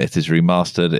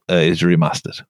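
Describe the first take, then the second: First: It is said in a southern English accent. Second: It is said in a northern English accent.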